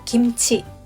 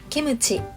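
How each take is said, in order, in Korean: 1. kim-chi, 두 음절로 발음해요. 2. ki-mu-chi, 세 음절로 발음해요.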